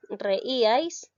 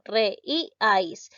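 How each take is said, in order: First: "reíais" as one word, weight on the í; stress on the í. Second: "Re, i, ais" split into three separate syllables. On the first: Teacher shows where the word's force falls, stress on the í. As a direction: say "reíais" joined up, leaning on its middle í. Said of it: "la mayor fuerza de voz lleva en la sílaba". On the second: Teacher shows how to split the word into syllables, syllable by syllable. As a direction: break it up: "Re", "i", "ais", a small gap between each. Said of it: "¿cómo lo silabeo?". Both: Shown as a demonstration.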